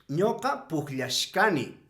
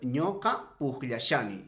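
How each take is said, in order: First: The suffix is pronounced as shka. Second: The suffix is pronounced as sha. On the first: "habrá otros que lo vayan a pronunciar de la siguiente manera" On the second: "la terminación sha"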